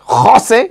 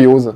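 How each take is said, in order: First: The name starts with a harsh, throaty sound. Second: The name starts with a soft sound. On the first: "so rausgerotzt" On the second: "Das klingt nach Norddeutschland"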